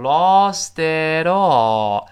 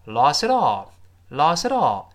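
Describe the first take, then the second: First: Slow, loud "lost it all" with each word fully sounded; over-careful model of "lost it all"; careful full pronunciation. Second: "lost it all" run together, the t barely heard; linked "lost it all" with a softened t; fast connected speech. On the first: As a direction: stretch out "lost it all" in its textbook form. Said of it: "理论上是读成". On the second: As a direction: say "lost it all" as one quick, blurred word. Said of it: "读快了之后". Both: Shown as a demonstration.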